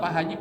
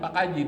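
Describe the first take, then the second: First: The second word starts with an h sound. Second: The second word starts with a k sound.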